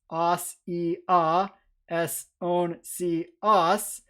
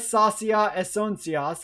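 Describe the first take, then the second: First: Very slow "sasia esoncias", each syllable separate; broken into syllables. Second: Said in the usual way. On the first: Shown as a demonstration. Lecturer fills in endings from the mnemonic, "sasia esoncias" syllable by syllable. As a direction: draw out "sasia esoncias" piece by piece with gaps between syllables.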